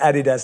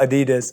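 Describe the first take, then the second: First: The word is said the British way. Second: The word is said the American way. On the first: This is how people in London say it. The speaker calls it right. "as I say" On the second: This is how Americans say it. The speaker calls it wrong.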